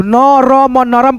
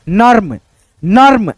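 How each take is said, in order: First: नरम split into न र म, all three syllables given full vowels; wrong reading. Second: नर्म as one syllable, र joined straight to म; correct reading. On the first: Teacher showing students the wrong way to read नरम, split up. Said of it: "बिल्कुल गलत होगा". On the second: Teacher showing students the right way to read नर्म, one syllable. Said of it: "ऐसे पढ़ना है". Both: Shown as a demonstration.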